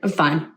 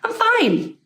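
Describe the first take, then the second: First: It sounds flat, low and unhappy. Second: It sounds bright, upbeat and cheerful.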